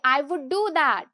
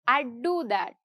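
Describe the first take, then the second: First: "I would" is said as two full words. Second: "I would" is contracted to "I'd".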